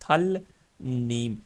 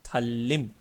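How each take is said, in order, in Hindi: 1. दूसरे अक्षर की शुरुआत n की आवाज़ से होती है। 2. दूसरे अक्षर की शुरुआत l की आवाज़ से होती है।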